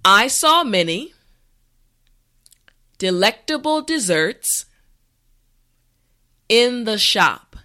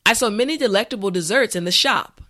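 First: The sentence is said slowly and carefully. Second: The sentence is said at a natural pace. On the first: "this time repeat after me" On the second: "the last time at a regular pace"

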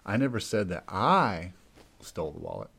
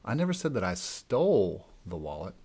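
First: The stress is on the second I. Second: The stress is on the word stole.

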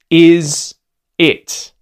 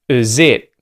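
First: Both words keep their full vowels. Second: The vowel of the first word is a schwa.

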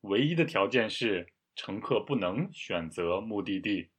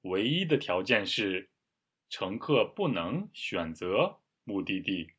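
First: It is read at a normal, faster pace. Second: It is read at a noticeably slower pace.

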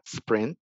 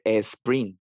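First: It starts directly with the s sound. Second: It starts with an added e vowel sound. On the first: The speaker calls it right. "Me gusta tu pronunciación, es la correcta" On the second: The speaker calls it wrong. "Mucha gente escucha que dice sprint"

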